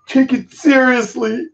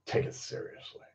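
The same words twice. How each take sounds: First: Mock commenter. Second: Whisper. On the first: Mocking the commenter's line. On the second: Real, not acted. Muttering the line to himself.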